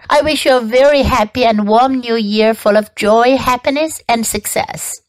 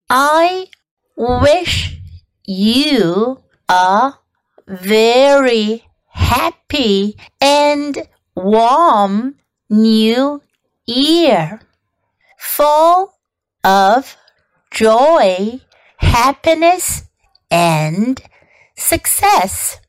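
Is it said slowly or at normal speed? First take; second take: normal speed; slowly. First: It is said at normal speed. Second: It is said slowly.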